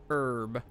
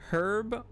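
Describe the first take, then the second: First: The word begins with a vowel, H silent. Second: The word begins with an audible H sound.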